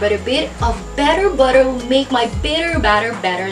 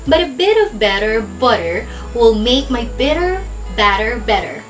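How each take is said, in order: First: It is said at a faster pace. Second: It is said at a slow pace. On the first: "a little faster" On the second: "our slow tongue twister"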